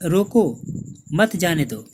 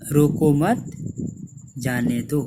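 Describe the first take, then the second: First: The pause comes right after 'roko'. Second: The pause comes right after 'mat'. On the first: The person should be stopped. "दूसरे वाक्य में रोको के बाद अल्प विराम" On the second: The person should not be stopped but let go. "रोको मत के बाद अल्प विराम लगा है"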